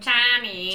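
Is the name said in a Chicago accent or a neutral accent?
Chicago. The name is said in a Chicago accent.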